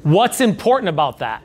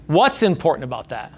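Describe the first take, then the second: First: Important lifted and leaned on; curious question leaning on important; stress on important. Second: What's hit first and hardest; pointed question opening on What's; stress on what's. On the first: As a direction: press the word important. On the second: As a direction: punch What's, let the rest fall. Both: Shown as a demonstration. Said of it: "you emphasize each word differently".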